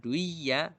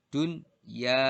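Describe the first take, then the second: First: The n sound merges into the y. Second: The n sound is pronounced clearly before y. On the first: The speaker calls it wrong. "bukan duya" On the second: The speaker calls it right. "dunya bukan duya"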